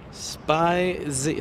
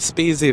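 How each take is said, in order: First: The first vowel sounds like 'eye'. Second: The first vowel sounds like 'ee'. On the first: The speaker calls it right. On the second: The speaker calls it wrong. "I have been saying this wrong for how many months?"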